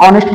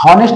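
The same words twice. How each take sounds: First: ऑनेस्ट with no h, opening on the vowel; silent h. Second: हॉनेस्ट with a spoken h at the start; wrong h pronunciation. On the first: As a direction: say ऑनेस्ट, dropping the h completely. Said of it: "ऑनेस्ट पढ़ते हैं". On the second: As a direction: say हॉनेस्ट with a clear h sound up front. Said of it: "हॉनेस्ट नहीं पढ़ते". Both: Shown as a demonstration.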